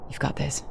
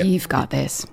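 First: It is said in a stern, flat way. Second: It is said in an animated, lively way.

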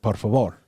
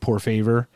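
First: It is said with a native Spanish accent. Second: It is said with an American-English accent.

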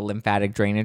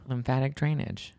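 First: It is said at normal conversational speed. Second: It is said slowly and deliberately.

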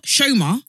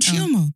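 First: The name starts with an 'sh' sound. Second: The name starts with a 'ch' sound. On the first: The speaker calls it wrong. "Not Shoma" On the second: The speaker calls it right. "When she says it, she introduces us. I'm Chioma"

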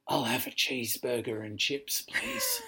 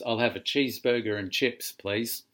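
First: It is said in a whisper. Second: It is said in a normal voice.

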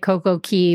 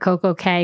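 First: The second word is pronounced like 'key'. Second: The second word is pronounced like 'kay'. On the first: The speaker calls it right. "I'm going to say Coco Key" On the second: The speaker calls it wrong. "I hate calling it Coco K because that's wrong"

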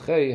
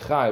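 First: The vowel sounds like the 'ay' in day. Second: The vowel sounds like the 'i' in high. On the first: "the Chei has a Tzeirei" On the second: "you say Chay with a Pasach under the Ches"

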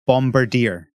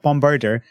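First: The name ends with a 'dee-er' sound. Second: The name ends with a 'dor' sound. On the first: The speaker calls it right. "It's clearly Bombirdier" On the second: The speaker calls it wrong. "you're pronouncing it wrong again. It's not Bombirdor"

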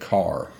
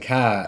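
First: It has a general accent with the r. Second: It has a Boston accent with no r.

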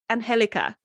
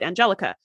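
First: The name is said with Spanish pronunciation. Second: The name is said with English pronunciation. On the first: This is how the owner of the name says it. The speaker calls it right. "she goes, Angelica. And she'll keep doing it until they say it properly" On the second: This is how English speakers read the name. The speaker calls it wrong. "If you're speaking English, like that's how you would pronounce it"

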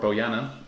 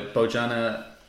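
First: The J is silent. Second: The J is sounded like an English J.

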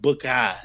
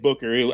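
First: The name is said in a put-on British accent. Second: The name is said in a plain American accent. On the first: The speaker calls it right. "I think it was more like Booker. ... his British accent" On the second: The speaker calls it wrong. "we said Booker"

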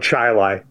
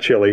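First: The word rhymes with highlight. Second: The word does not rhyme with highlight. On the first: It names the small New York town. The speaker calls it right. "rhymes with highlight" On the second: It names the South American country. The speaker calls it wrong. "not Chile"

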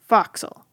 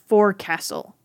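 First: It is said with a New England accent. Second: It is said in full, as spelled. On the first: "if you're from some parts of New England" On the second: "It looks like the word forecastle"

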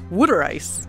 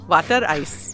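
First: It is said in a Philadelphia accent. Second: It is said in a general, non-Philadelphia accent. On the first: "we're both in the Philly area. Right, and that's why I say water ice" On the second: "not water ice"

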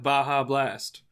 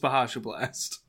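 First: Baja is said the usual way, two syllables. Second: Baja is said with an extra 'sh' syllable.

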